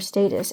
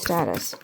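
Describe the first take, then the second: First: The word is said in a British way. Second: The word is said in an American way.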